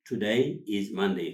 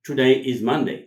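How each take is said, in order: First: Slow, measured, words set apart; slow model repetition. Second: Louder, in one connected phrase; natural model sentence. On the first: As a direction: let learners catch each word. Teacher repeats it slowly. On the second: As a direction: model the answer at speaking pace. Teacher models the answer. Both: Shown as a demonstration.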